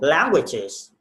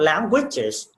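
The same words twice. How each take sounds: First: The stress is on the first syllable. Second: The stress is on a later syllable. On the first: The speaker calls it right. "You need to set in the first syllable" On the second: The speaker calls it wrong. "not languages"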